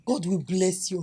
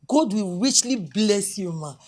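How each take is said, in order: First: Said in the usual way. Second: Louder, slow and drawn out, heartfelt; fervent blessing. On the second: Acted. Doctor blesses the visiting official, loud slow fervent thanks. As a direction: pour out gratitude with each word.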